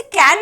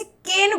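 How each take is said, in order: First: कैन said with an open "ae" vowel, like English can; कैन with the wide "ae" sound, the version to avoid; कैन said like the English word can; wrong vowel. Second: केन said with a closed "e" vowel, like cane; केन with the narrow "e" sound, the right version; केन rhymes with English cane; correct vowel. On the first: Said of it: "मैं इसे कैन नहीं बोल रही हूँ". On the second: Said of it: "मैं इसे केन बोल रही हूँ". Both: Shown as a demonstration.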